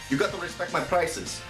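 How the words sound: It is said in a put-on character voice. The speaker calls it right. "Like that"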